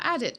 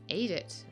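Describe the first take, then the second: First: The first vowel sounds like 'add'. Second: The first vowel sounds like 'ate'. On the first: The speaker calls it wrong. "I've probably been saying wrong" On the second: The speaker calls it right.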